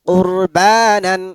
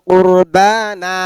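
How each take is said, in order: First: The word ends with a final n sound. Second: The word ends on an open vowel. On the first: The word is read in spelling mode, with nunation. "বানানের সময় পড়লাম বানান" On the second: The word is read in its pausal form at a stop. "আর এখন বললাম না"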